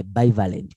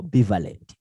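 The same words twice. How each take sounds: First: "bivalent" with first syllable as "bye"; long i opening "bivalent", like "buy"; first pronunciation variant. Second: "bivalent" with first syllable as "bee"; short, pure ee sound opening "bivalent"; alternative pronunciation. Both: Shown as a demonstration. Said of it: "how do you pronounce that".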